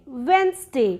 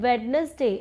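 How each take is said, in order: First: The middle 'd' sound is silent. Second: The middle 'd' sound is pronounced. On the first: The speaker calls it right. "It's वेंसडे" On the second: The speaker calls it wrong. "लोग बोलते हैं वेडनेसडे"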